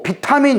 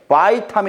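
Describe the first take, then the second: First: It is said in the older style, starting 'bi'. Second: It is said English-style, starting 'bai'. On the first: This is the name no longer taught. "이렇게 안 배워 요즘에" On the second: This is the name taught now. "이렇게 배우잖아"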